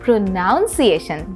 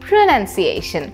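First: The second syllable sounds like 'nown'. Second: The second syllable sounds like 'nun'. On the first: The speaker calls it wrong. "যেটা কিনা ভুল" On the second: The speaker calls it right. "Correct অর্থাৎ শুদ্ধ উচ্চারণ"

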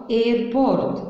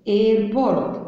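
No difference in how they are said.

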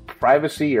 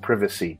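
First: It is said with an American pronunciation. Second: It is said with a British pronunciation.

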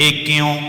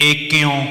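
Both takes have the same delivery.

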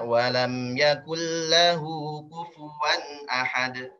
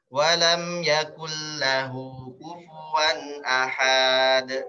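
First: The final consonant is hit straight away, no lengthening. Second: The vowel before the final consonant is drawn out. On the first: The speaker calls it right. "Jadi langsung aja" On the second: The speaker calls it wrong. "padahal enggak ada mat di situ"

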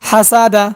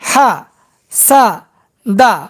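First: The syllables are joined without any breaks. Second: The syllables are said separately with breaks. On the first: "এবার একসঙ্গে উচ্চারণ করব" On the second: "এবার ভাঙ্গা ভাঙ্গা উচ্চারণ করব"

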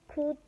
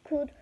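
The two takes are said the same way.

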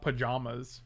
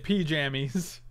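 First: The middle syllable sounds like 'jom'. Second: The middle syllable sounds like 'jam'. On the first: The speaker calls it wrong. "It's not J-O-M. It's not pajamas" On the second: The speaker calls it right. "I say pajamas"

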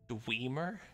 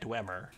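First: The first syllable rhymes with 'dream'. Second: The first syllable does not rhyme with 'dream'. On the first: "Pronounce it like Dreamer" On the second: "I've always said Dwemer"

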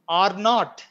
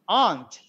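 First: It is said as two full words. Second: It is said as one contracted syllable.

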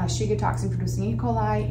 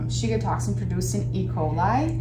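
First: The phrase is said at a normal quick pace. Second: The phrase is said very slowly and deliberately.

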